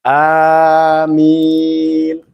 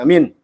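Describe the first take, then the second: First: The first vowel is drawn out long. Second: The first vowel is short, the m doubled. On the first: The speaker calls it right. "A-nya panjang" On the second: The speaker calls it wrong. "Jangan amin"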